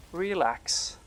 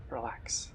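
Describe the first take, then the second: First: Said in the usual way. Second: Softer and lower, breathed to himself; soothing himself after the scare; whispered relax. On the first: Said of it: "Whew, relax". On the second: Real, not acted. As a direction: whisper it to calm down. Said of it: "I'm literally sweating right now".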